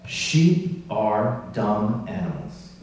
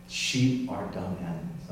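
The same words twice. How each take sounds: First: Slow, weighty delivery of a quote; deliberate quotation. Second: Softer, lower repeat of the quote; subdued repeat. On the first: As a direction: let each word land slowly. Delivers the remembered statement solemnly. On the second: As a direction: let the quote settle, low and soft. Repeats the quote more quietly. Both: Retold or imitated.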